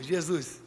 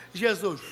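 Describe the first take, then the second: First: Imitating laughing speech. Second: Jesus said through pouted, rounded lips; pursed-lips Jesus. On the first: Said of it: "Vocês falam rindo". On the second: Shown as a demonstration. Preacher showing how he says Jesus himself with a pout. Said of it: "eu falo bico".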